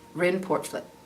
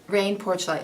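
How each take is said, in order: First: The name is given an attempted Dutch pronunciation. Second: The name sounds like English 'rain porch light'. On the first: The speaker calls it right. "Apparently, his name is, is Rin Portvliet" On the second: The speaker calls it wrong. "like if it rains, turn on your porch light. Yeah, that's not how you say it"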